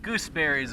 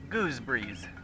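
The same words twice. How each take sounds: First: It is said in an American accent. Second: It is said in a British accent.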